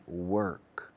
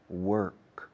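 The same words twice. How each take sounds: First: The R is curled and clearly sounded. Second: The R is curled and clearly sounded.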